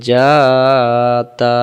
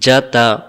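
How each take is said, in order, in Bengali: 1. স্বরধ্বনিগুলো লম্বা করে টানা হয়। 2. স্বরধ্বনিগুলো ছোট ও দ্রুত রাখা হয়। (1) "চারটি অক্ষর উচ্চারণ হয়ে গেছে টান দেওয়ার কারণে" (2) "তাড়াতাড়ি, টেনে টেনে পড়া যাবে না"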